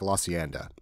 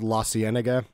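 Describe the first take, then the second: First: A middle syllable is dropped from the name. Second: Every syllable is said, as spelled. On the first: "if you're from L A, it sounds like" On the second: "how it's spelled"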